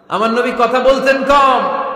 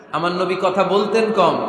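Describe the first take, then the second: First: কম punched higher and louder; emphatic repeat. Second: Said in the usual way. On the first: Shown as a demonstration. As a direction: hit কম hard, higher and louder. (কম শব্দে জোর দিয়ে, উঁচু গলায়) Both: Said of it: "খেয়াল করে শুনেন".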